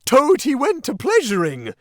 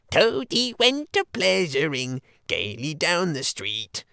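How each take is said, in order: First: High, loud yelled mockery of the song; furious yell. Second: Sung, high, slow sing-song mocking ditty; high squeaky singing. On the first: Toad charging the Chief Weasel, yelling the song back in rage. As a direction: hurl the line back at them. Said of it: "he yelled". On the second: Chief Weasel singing his mocking song about Toad, high and squeaky. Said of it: "began in a high, squeaky voice". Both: A narrator's reading.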